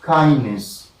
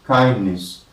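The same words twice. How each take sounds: No difference in how they are said.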